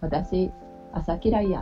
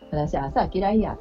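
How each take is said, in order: First: 朝 starts low and rises to mid. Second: 朝 starts high and strong. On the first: It is today's pronunciation of 'morning'. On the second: It is the older Kyoto pronunciation of 'morning'.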